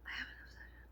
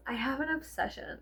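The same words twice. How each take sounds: First: A hushed secret; whispered confession. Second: Said in the usual way. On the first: Real, not acted. Vlogger confessing her obsession to viewers, whispered. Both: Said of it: "Can I be honest with you?".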